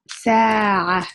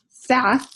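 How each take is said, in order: First: The vowel is held long. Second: The vowel is short. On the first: "you're saying sa" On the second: "instead of saying sa"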